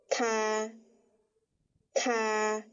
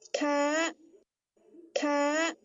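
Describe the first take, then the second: First: The syllable is said with the first tone. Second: The syllable is said with the fourth tone. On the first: "第一声调对应的这个发音念作ka ka" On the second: "念第四声调，咔咔"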